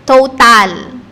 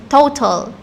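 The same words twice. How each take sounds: First: "Total" said as spelled, with a full A in the second syllable; louder "Total" as toh-TAHL, Filipino spelling pronunciation; wrong pronunciation. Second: "total" as TOH-tul, weak second vowel; English pronunciation. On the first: Teacher shows learners how not to say it, "Total" with a full A. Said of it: "Hindi kasi siya". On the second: Teacher corrects learners on the English way, "total" as TOH-tul. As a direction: stress the first syllable of "total", swallow the A. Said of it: "No, it's total". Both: Shown as a demonstration.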